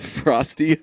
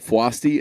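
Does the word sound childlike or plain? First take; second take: plain; childlike. First: The word is said in the plain, ordinary way. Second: The word is said in a childlike, French-sounding way.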